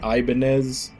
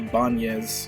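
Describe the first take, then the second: First: The middle consonant is a plain n sound. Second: The middle consonant is an 'ny' sound. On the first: This is how most people say the brand. The speaker calls it wrong. "everybody pronounces it Ibanez" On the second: This is the original Spanish surname. The speaker calls it right. "There's actually supposed to be an ñ over the N, so it's supposed to be Ibanez"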